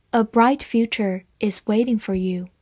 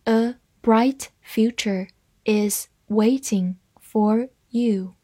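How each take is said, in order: First: Said in the usual way. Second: Slow and separated, word by word; teacher's slow model sentence; slow reading. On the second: Shown as a demonstration. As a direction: leave a gap after every word. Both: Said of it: "慢慢来读".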